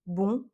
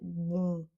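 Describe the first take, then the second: First: The word is short and cut off sharply. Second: The word is drawn out with a bouncing nasal. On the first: "un bon en français qu'on coupe, qui est très court" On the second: "comme si on faisait rebondir quelque chose dans la bouche"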